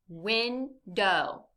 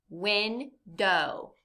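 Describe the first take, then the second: The two takes are said the same way.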